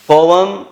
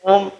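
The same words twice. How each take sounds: First: Poem said POH-em, two syllables, louder and higher; poem stressed as POH-em; poem corrected with force; correct pronunciation, emphatic. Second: Poem said as one syllable, POME; poem squashed wrongly into pome; mock-wrong poem; wrong pronunciation. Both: Shown as a demonstration. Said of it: "It is not poem".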